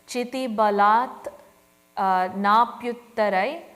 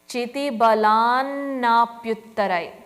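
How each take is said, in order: First: The words are split, ending balat with t. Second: The words are joined, with a held n sound. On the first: "where I split it" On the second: "We now pronounce it as"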